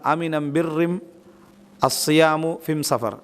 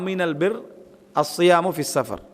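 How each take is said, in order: First: The article is pronounced with an m sound. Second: The article is pronounced with an l sound. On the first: This is how a certain tribe's dialect says it. "அவங்க எப்படி அதை சொல்லுவாங்கன்னா" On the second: This is the standard form. "இது"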